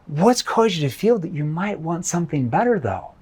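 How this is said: The question is asked in a concerned tone. "concerned tone"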